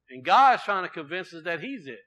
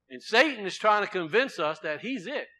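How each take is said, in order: First: "God's" punched louder, the rest falling; stress on God. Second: "Satan" leaned on, the rest falling away; stress on Satan. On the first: Preacher contrasting Satan and God for the congregation, stress on "God's". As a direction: hit the word "God's" hard. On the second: Preacher contrasting Satan and God for the congregation, stress on "Satan". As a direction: hit the word "Satan" hard. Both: Shown as a demonstration.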